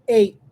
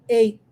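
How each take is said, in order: The two takes are said the same way.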